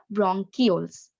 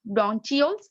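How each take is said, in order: First: Said in the usual way. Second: "bronchioles" as BRON-chee-ols; alternative pronunciation. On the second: Shown as a demonstration. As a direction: give "bronchioles" a ch as in cheese, not a k. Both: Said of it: "Some people pronounce it bronchioles".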